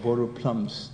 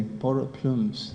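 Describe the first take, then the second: First: Borrowed "plums" with a short u, like the fruit; the wrong word plums instead of plumes; mispronounced plums. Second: "Borrowed plumes" slowly, with a long oo in "plumes"; slow, deliberate "plumes"; careful plumes. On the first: Retold or imitated. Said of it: "I thought I said borrowed plums". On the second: Shown as a demonstration. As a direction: spell out "plumes" with a clear long oo, taking care. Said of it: "I never used it until to this day".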